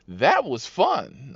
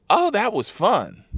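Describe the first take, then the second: First: Slow, stretched retold delight; drawn-out rider reply. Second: High, gleeful retold reply; mock thrilled rider. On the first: Rider after a second slide, drawn-out mock delight. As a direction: draw out each word, leaning on the first. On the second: Rider who slid into the Jeep, mock thrilled. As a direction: pitch it up like a delighted passenger.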